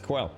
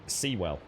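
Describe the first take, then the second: First: The name begins with a kw sound. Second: The name begins with a see sound. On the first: The speaker calls it right. "It literally says Quell" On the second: The speaker calls it wrong. "not Seawell. Seawell wouldn't be spelt like that"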